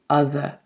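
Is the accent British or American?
British. The final r sound is left open. "British English by itself. Okay, the R is more open"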